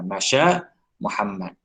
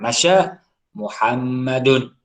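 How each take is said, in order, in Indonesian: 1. Nama itu berakhir tanpa tambahan vokal. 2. Nama itu berakhir dengan bunyi -un. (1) "Tadi Muhammad ni tidak berbaris" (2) "Muhammad kena baca dengan dhammah"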